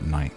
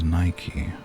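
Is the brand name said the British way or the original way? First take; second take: British; original. First: The name is said the usual British way. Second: The name is said the original, brand-intended way. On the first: The speaker calls it wrong. "in the U K we call it Nike" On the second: The speaker calls it right. "The correct pronunciation is Nike"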